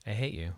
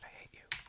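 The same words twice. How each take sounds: First: Said in the usual way. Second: Whispered frustration, barely voiced. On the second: Real, not acted. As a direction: hiss it under your breath at the screen. Repeated curse at the build.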